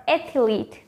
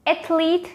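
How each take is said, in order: First: "athlete" as ATH-uh-leet; three-syllable mispronunciation. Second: "Athlete" as ATH-leet, pitched up; two-syllable pronunciation. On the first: Teacher contrasting for viewers, three-syllable mispronunciation. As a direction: add a vowel between th and l in "athlete". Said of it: "There is a difference". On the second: Teacher asking viewers to listen, two-syllable pronunciation. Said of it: "There is a difference. Listen very carefully". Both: Shown as a demonstration.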